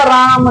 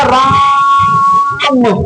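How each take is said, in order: First: Said in the usual way. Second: राम stretched long and slow, the vowel held; drawn-out Ram. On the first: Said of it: "इसका मतलब ये नहीं है कि आपने पढ़ दिया राम". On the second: Shown as a demonstration. Teacher to students, long pulled-out राम. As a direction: pull the आ of राम out like a Ramayan chant. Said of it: "आवाज को खींचना होगा राम".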